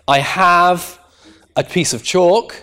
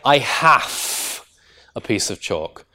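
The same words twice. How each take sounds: First: 'Have' ends with a voiced v sound. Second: 'Have' ends with a voiceless f sound. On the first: The speaker calls it right. "if this have is used as a lexical verb" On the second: The speaker calls it wrong. "you would never say"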